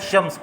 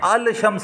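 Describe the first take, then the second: First: The L is silent and the sh doubles. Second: The L sound of al is clearly pronounced. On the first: The speaker calls it right. "बल्कि अशम्स पढ़ा है" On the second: The speaker calls it wrong. "अल शम्स नहीं पढ़ा"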